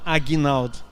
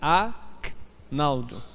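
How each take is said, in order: First: An extra vowel is heard after the G sound. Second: No vowel is heard after the G sound. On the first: The speaker calls it wrong. "não Aguinaldo" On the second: The speaker calls it right. "O meu G é mudo. É Agnaldo"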